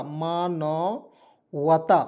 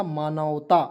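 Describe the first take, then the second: First: मानवता very slowly, split into drawn-out parts; syllable by syllable. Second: Said in the usual way. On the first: Shown as a demonstration. Teacher teaching a Hindi meaning to learners, syllable by syllable. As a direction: stretch मानवता out, pausing between syllables.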